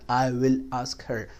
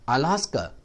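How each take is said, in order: First: The words are said separately and in full. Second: The words run together with a silent h. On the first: The speaker calls it wrong. "not I will ask her। वो written English है" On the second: The speaker calls it right. "her जो है ये h भी silent हो जाता है"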